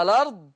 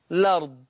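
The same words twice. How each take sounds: First: "الأرض" as a-lard; vowel before the l of "الأرض"; initial vowel kept. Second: "الأرض" as lard; no vowel before the l of "الأرض"; initial vowel dropped. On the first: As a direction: start "الأرض" with a short a. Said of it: "إثبات همزة الوصل". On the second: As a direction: start "الأرض" on the l. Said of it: "حذف". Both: Shown as a demonstration.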